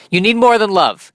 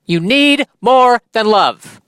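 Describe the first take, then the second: First: High, insistent "You need more than love"; "more" punched in one quick, high run; emphatic rant. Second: "need", "more", "love" each hit separately, high and slow; high, drawn-out proclamation with pauses around "more"; slow emphatic declaration. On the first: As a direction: declare "more than love" in a raised pitch. Ranting counter-message, first take. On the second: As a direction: drive home every word of "You need more than love". Repeats it slower for emphasis. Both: Real, not acted.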